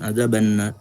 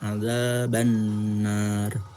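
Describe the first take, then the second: First: The n sound is kept short. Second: The n sound is held long. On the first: The speaker calls it wrong. "Jadi bukan ada benar" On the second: The speaker calls it right. "Tapi ditahan ada benar gitu"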